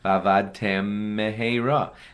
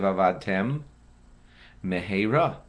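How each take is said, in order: First: The two m sounds merge into one. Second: Two distinct m sounds are heard, lips separated. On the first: The speaker calls it wrong. "That's one mem" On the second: The speaker calls it right. "separate your lips"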